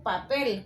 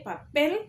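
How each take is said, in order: First: Said in the usual way. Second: "papel" with the final "pel" punched higher; stress on the E. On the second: Shown as a demonstration. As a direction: hit the E of "papel", lifting the pitch. (acento marcado en la E de "papel") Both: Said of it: "la fuerza de la voz en la E".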